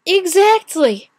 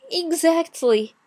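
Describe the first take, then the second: First: "exactly" slow, high and loud; forceful emphasis. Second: "exactly" stretched slowly and pitched high; drawn-out emphasis. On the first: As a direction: punch "exactly" hard, stretching it out. Word repeated harder for emphasis. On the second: Word repeated for emphasis. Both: Real, not acted.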